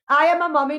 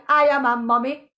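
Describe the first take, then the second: First: "am" stressed as the insisting word. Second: "I" stressed with a rise. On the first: Mother insisting on her role, stress on "am". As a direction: hit "am" in "I am a mummy". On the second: Mother asserting herself, stress on "I". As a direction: push the word "I" in "I am a mummy". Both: Real, not acted. Repeated declaration, stress shifts.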